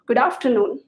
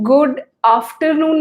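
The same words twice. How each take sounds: First: The two words run together in one flow. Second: The two words are said separately. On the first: The speaker calls it right. "एक flow में जाता है" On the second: The speaker calls it wrong. "गुड आफ्टरनून नहीं बोल के"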